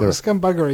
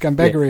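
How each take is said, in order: First: The middle syllable sounds like 'bug'. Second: The middle syllable sounds like 'bag'. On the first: It refers to scum having buggery with an animal. The speaker calls it wrong. "that would be like some kind of scum having buggery" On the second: It describes the behaviour of a scumbag. The speaker calls it right. "scumbaggery is more of a descriptive word"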